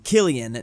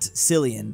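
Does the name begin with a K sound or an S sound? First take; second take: K sound; S sound. First: The name begins with a hard K sound. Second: The name begins with an S sound. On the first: The speaker calls it right. "pronounced Killian" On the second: The speaker calls it wrong. "not Cillian"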